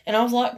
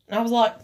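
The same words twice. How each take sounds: The two takes are said the same way.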